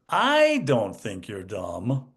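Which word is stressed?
I. The stress falls on the word I. Everyone else thinks you are dumb. "but everyone else does"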